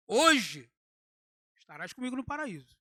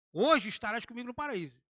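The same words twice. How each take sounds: First: Hoje said alone and loud, then a pause before estarás comigo no paraíso; pause after Hoje. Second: Said in the usual way. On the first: Shown as a demonstration. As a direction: set Hoje apart with a clear break. (pausa depois de Hoje, separando Hoje do resto) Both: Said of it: "Já mudou".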